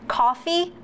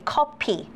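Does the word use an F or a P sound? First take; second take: F; P. First: The middle consonant is an F sound. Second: The middle consonant is a P sound.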